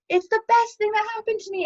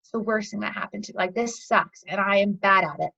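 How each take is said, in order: First: Elated, high-pitched gush; squealy mock elation; acted high. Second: Deflated, lower-energy grumble; acted low. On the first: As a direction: play being on top of the world, pitch way up. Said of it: "we have our highs". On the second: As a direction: play being down in the dumps. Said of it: "and then we have our lows".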